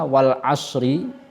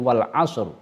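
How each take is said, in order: First: The final short vowel after asr is pronounced. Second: The final short vowel after asr is dropped.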